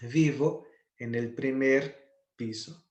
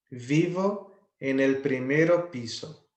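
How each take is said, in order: First: Primer said short, with the final o dropped, before piso; correct form shown. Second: Primero said in full before piso, the form marked as wrong; wrong form shown. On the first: Teacher to students, modelling the correct primer piso. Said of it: "o certo é dizer primeiro piso". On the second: Teacher to students, reading the wrong primero piso sentence. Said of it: "é errado eu dizer primeiro piso". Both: Shown as a demonstration.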